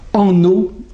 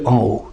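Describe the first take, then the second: First: An n sound links into the second word. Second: No n sound links into the second word. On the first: The speaker calls it wrong. "Ils disent en eau" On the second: The speaker calls it right. "au lieu de en haut"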